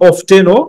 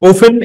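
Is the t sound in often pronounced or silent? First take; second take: pronounced; silent. First: The t sound in the middle is pronounced. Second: The t sound in the middle is silent.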